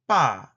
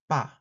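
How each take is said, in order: First: The first consonant is tense and tight. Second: The first consonant is plain and lax. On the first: "Stop affricate tense" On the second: "Bilabial stop affricate plain"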